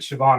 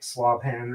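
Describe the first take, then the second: First: The name begins with an 'sh' sound. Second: The name begins with an 'sl' sound. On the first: The speaker calls it right. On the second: The speaker calls it wrong.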